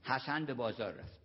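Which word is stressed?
none. No word is given special stress.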